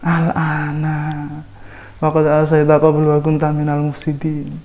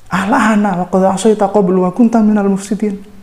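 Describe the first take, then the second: First: It is read with a non-rebuking intonation. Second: It is read with a rebuking, scornful intonation.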